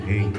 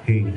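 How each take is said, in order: Both takes have the same delivery.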